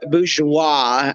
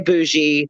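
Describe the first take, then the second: First: The word is said in its full form. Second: The word is said in a short two-syllable form. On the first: This is the proper dictionary form. "I guess would be the actual" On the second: This is how most people say it. "Some people say bougie"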